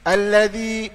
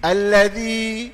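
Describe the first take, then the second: Both takes have the same delivery.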